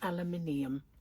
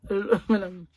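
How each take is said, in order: First: It is said the British way, five syllables. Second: It is said the American way, four syllables. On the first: "Not aluminium" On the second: "They call it aluminum"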